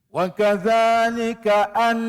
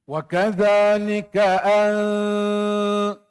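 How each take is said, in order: First: The n is pronounced clearly, without nasal blurring. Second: The n is blurred into a nasal hum. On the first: "itu nyata nun" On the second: "sama-samarkan nun tu. Tidak dinyatakan nun tu"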